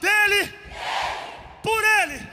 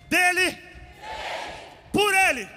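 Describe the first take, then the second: First: It is said loudly and strongly. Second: It is said at normal loudness.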